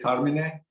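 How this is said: The name is pronounced the Italian way. This is how it is said in Italy. "in Italy, you would say Carmine"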